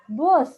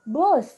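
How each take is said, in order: First: The vowel sounds like the 'uh' in 'bus'. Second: The same.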